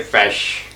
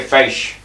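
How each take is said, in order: First: "fish" said as "fesh", a short open e vowel; the other town's way of saying fish. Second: "fish" said as "feysh", the vowel stretched into an ay glide; local way of saying fish. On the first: Old fisherman showing how the neighbouring town says "fish", short "fesh" vowel. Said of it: "Brocha say fish". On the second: Old fisherman showing a visitor how his village says "fish", drawn-out ay vowel. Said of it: "We say fish". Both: Shown as a demonstration.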